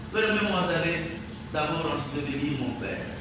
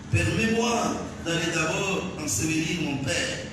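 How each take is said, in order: No difference in how they are said.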